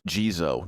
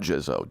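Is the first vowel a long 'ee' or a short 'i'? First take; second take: long ee; short i. First: The first vowel is a long 'ee' sound. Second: The first vowel is a short 'i' sound. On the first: The speaker calls it right. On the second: The speaker calls it wrong. "not Jizzo, don't do it again"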